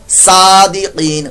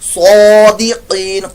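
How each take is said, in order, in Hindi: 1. पहली s ध्वनि हल्की और पतली है। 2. पहली s ध्वनि भारी और मोटी है। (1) "सीन सादिकीन गलत" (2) "मोटा पड़ा जाएगा"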